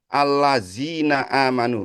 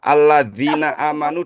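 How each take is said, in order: First: The consonant after 'alla' is a 'z' sound. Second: The consonant after 'alla' is a 'dh' sound. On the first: The speaker calls it wrong. "dibacanya allazina amanu" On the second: The speaker calls it right. "misalnya huruf"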